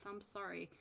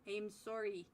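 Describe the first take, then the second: First: Said in the usual way. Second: Soft Canadian "sorry" with a rounded "sore" vowel; Canadian accent. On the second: Shown as a demonstration. Caster apologizing to viewer Henry, mock Canadian accent. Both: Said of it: "That sound Canadian enough?".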